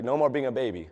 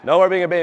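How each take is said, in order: First: Quieter, held-back coach's warning; lightly voiced coach, low-key and firm; a hint of a stern coach, said softly; coach's stern words. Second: Louder, pressing coach's repeat; lightly voiced coach driving the point home; a hint of a stern coach, said louder; coach's stern words, repeated. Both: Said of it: "He's like".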